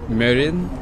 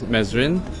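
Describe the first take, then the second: First: The name is said without an S sound. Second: The name is said with an S sound. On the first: The speaker calls it right. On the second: The speaker calls it wrong.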